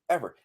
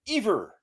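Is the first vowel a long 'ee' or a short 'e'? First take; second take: short e; long ee. First: The first vowel is a short 'e' sound. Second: The first vowel is a long 'ee' sound. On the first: The speaker calls it right. "It's ever" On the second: The speaker calls it wrong. "No word with just E V E R is pronounced ever. Ever would require another E"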